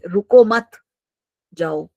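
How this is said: There is a pause after the word 'mat'. The listener is told to leave. "रुको मत के बाद comma लगा तो भाई निकल जाओ तुम"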